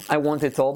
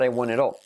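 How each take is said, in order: First: The T is a hard, clear stop. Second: The T is a quick tap like R. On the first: The speaker calls it wrong. "we don't say" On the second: The speaker calls it right.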